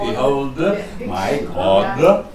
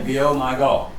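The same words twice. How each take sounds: First: The consonants are pronounced clearly and fully. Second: The consonants are left out or barely heard. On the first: This is how singers who learnt the language say it. The speaker calls it right. "Germans learning it would learn it" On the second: This is how native English singers say it. The speaker calls it wrong. "you leave out the consonants"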